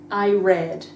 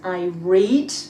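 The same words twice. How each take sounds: First: Read is pronounced as its past-tense form. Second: Read is pronounced as its present-tense form. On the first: It describes a finished past action. "Put it into the past" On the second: It describes a habit or present action. "That's present simple"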